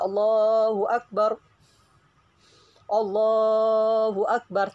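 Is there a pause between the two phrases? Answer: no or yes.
yes. There is a pause between the two phrases. The speaker calls it wrong. "jadi jangan sampai dijeda"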